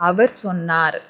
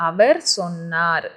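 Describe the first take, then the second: Both takes have the same delivery.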